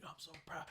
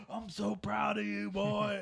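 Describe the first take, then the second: First: Soft, breath-only first try at dad's praise; retold praise under the breath; proud dad, hushed. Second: Higher, louder imitation of a gushing father; hammed-up fatherly pride; proud dad. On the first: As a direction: whisper it as an imitation of a proud father. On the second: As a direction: push the praise out big, like a beaming dad. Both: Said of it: "my dad's like".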